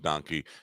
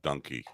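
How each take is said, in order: First: The first syllable does not sound like 'done'. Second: The first syllable sounds like 'done'. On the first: This is how most people say it. The speaker calls it wrong. "most people pronounce it donkey" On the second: This is the proper way to say it. The speaker calls it right. "The proper pronunciation is donkey"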